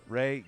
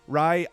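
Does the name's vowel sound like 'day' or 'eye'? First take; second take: day; eye. First: The name rhymes with day. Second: The name rhymes with eye. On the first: The speaker calls it right. "I'm sure you pronounce it Ray" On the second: The speaker calls it wrong. "I'm sorry I'm calling you Rye"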